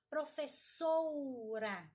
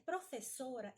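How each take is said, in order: First: "professora" said as "professoura", long "ou"; slow, exaggerated "professoura" for "professora"; overcorrected vowel. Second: Said in the usual way. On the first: Shown as a demonstration. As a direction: wrongly add a stretched u to "professora". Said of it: "colocar i onde não tem ou u". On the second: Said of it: "na hora de escrever professora".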